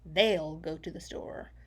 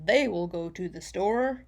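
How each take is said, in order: First: The two words are joined into one short contraction. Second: The two words are said fully and separately. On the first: "Because we like to speak fast" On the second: "instead of saying"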